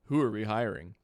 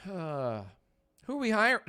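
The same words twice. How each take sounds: First: Said in the usual way. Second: Slow, high, sighing and strained; weary sigh through the words, slow; sighing drag. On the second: Real, not acted. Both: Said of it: "it sounds like I ate dairy".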